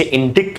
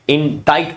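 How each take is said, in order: First: इंडिक्ट with a sounded k, 'in-dikt'; wrong pronunciation. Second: इंडाइट said 'in-dite', silent C; correct pronunciation. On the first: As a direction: read इंडिक्ट letter by letter, short i. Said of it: "ना कि आप इसे इंडिक्ट पढ़ेंगे". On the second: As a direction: model इंडाइट slowly with an 'eye' vowel. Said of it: "इंडाइट पढ़ा जाता है". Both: Shown as a demonstration.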